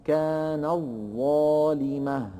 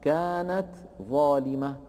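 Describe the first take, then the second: First: "كانت ظالمة" chanted slowly, ت merged into doubled ظ; slow joined "كان الظالمة" with a long held ظ; after assimilation. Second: "كانت ظالمة" with ت released clearly before ظ; "كانت ظالمة" as two separate words; before assimilation. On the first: ("كان الظالمة" بإدغام التاء في الظاء) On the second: ("كانت ظالمة" بإظهار التاء) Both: Shown as a demonstration. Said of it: "تصبح بعد الإدغام".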